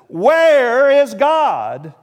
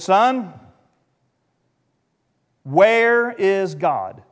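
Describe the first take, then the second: First: It is said loudly and sternly. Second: It is said at a moderate volume.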